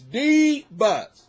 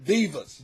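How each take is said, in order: First: Divas said louder and drawn out; louder emphatic Divas. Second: Said in the usual way. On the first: Real, not acted. Complaining about the house women, Divas stressed louder. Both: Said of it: "You know what I'm saying".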